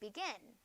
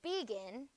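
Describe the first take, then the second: First: The stress is on the second syllable. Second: The stress is on the first syllable. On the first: The speaker calls it right. "Gin is accented in that word" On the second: The speaker calls it wrong. "I wouldn't say begin"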